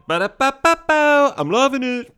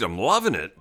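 First: High, loud ad-jingle singing; sung, belt out the jingle up high; bouncy sung slogan with held notes. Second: Low, swooping delivery; relishing it in a swooping low voice. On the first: Acted. Breaks into advertising jingle. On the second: Real, not acted. Sets up a jingle quote.

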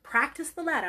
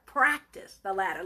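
First: Said in the usual way. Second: PRACTICE punched low and hard, then "the latter" dropping away; emphatic. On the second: Shown as a demonstration. Preacher driving the point home to the church, stress on "Practice". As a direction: lean heavily on "Practice". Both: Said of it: "I'm gonna emphasize that".

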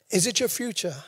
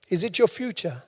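The two takes are said the same way.

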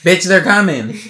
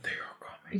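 First: Loud, hammed-up alarm; comic shouted warning. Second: Whispered eerie omen; creepy whisper. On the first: Redoing the creepy party warning as a joke, loud mock shout. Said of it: "Someone should redo it when King". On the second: Retold or imitated. Imitating that thing from the Harry Potter movie, creepy whisper. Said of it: "That was the creepiest thing".

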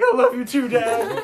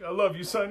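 First: Put-on high, shouted small-boy voice; excited little kid. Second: Lightly acted dad, pitched up; a hint of a dad pumping up his boy; hyping-up dad. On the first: Little boy answering his dad's pep talk, loud kid voice. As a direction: yell it like a hyped-up preschooler. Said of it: "kid must be, like, four or five". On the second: Dad hyping his kid up for a solo bathroom trip, lightly voiced dad. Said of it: "his dad's, like, hyping him up".

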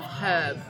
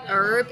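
First: "herb" with the H sounded; British pronunciation. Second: "herb" with a silent H; American pronunciation. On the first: Co-host asking from British view, "herb" with its H. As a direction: breathe a clear H at the start of "herb". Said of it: "instead of herb? Like, why is the H silent". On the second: British co-host questioning American speech, "herb" without its H. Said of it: "Why do Americans say herb instead of herb". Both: Shown as a demonstration.

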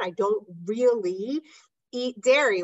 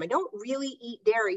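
First: Slow, leaning on really with a rise; imitating a patient's excuse. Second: Said in the usual way. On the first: Mimicking a patient to listeners, drawn-out really. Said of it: "No, you don't understand". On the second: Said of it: "This is what people say to me".

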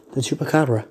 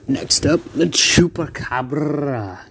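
First: Said in the usual way. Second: Dramatic announcer. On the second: Acted. Announcing second fighter.

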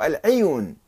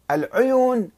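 First: العيون said al-'iyun; العيون starting with "'i"; with kasra. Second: العيون said al-'uyun; العيون starting with "'u"; with damma. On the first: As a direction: spread the first vowel of العيون to i. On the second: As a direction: round the first vowel of العيون to u. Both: Shown as a demonstration. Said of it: "بالضم والكسر".

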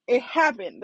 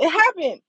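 First: Said in the usual way. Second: Excited. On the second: Real, not acted. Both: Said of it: "it was amazing".

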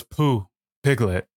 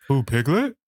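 First: "Pooh, Piglet" as a falling statement; "Pooh, Piglet" slow and final; recited answer. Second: "Pooh, Piglet" as a rising question; puzzled echo. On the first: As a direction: state "Pooh, Piglet" slowly, pitch dropping at the end. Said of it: "She goes". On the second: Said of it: "And then they go". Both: Retold or imitated.

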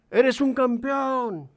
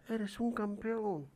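First: High, slow, ringing call. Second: Softer, slow distant echo; faint echo. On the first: Father calls praise to the mountain, slow call. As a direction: stretch the words across the valley. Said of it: "el padre grita". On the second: The mountain echoes the father, faint slow echo. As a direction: repeat it back from far away. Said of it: "del otro lado le contestan". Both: A narrator's reading.

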